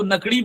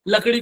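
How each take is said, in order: First: The word begins with an n sound. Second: The word begins with an l sound. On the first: The speaker calls it wrong. "नकड़ी बोलता है" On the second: The speaker calls it right. "लकड़ी को"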